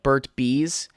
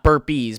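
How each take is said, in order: First: The first word ends with a t sound. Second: The first word ends with a p sound. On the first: The speaker calls it right. "but like Burt Bees" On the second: The speaker calls it wrong. "It's not Burp Bees"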